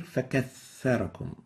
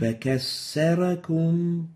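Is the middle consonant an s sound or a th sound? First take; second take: th; s. First: The middle consonant sounds like a voiceless th. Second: The middle consonant sounds like an s. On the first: The speaker calls it right. "Notice there is a tha here" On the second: The speaker calls it wrong. "sin instead of the tha. This is wrong"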